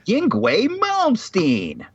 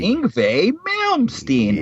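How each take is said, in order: First: The first name is said without a V sound. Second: The first name is said with a V sound. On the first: The speaker calls it wrong. "Is that what it said?" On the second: The speaker calls it right. "It's Ingve, like a V"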